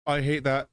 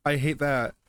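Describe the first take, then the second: No difference in how they are said.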